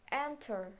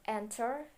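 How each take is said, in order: First: "enter" said apart with stress on EN; stressed example word. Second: Said in the usual way. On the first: Shown as a demonstration. Teacher showing where stress falls, deliberate ENter. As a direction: stress the first syllable of "enter". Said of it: "Stress for first, weak syllable, last syllable". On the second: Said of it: "Stress for first, weak syllable".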